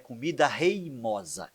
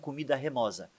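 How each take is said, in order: First: The second word starts with the diphthong 'rei'. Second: The second word starts with a plain 're'. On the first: The speaker calls it right. "a expressão correta é comida reimosa" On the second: The speaker calls it wrong. "e não comida remosa"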